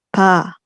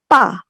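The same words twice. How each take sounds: First: The consonant is relaxed and breathy. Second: The consonant is tense and clipped.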